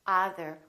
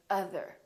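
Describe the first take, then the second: First: "other" as "ah-ther"; mispronounced "other", tense first vowel; wrong vowel demo. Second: "other" as "uh-ther"; short uh starting "other"; neutral uh vowel. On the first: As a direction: open "ah" starting "other". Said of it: "We don't say other". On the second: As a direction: say "other" with a relaxed first vowel. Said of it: "we say other". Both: Shown as a demonstration.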